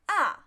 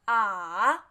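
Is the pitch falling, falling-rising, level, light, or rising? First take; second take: falling; falling-rising. First: The pitch falls sharply from high to low. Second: The pitch dips down and then rises. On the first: "Just directly fall" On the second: "third tone, fall, then rise"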